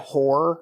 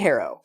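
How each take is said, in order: First: The name is said as one syllable. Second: The name is said as two syllables. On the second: "let's say Harrow"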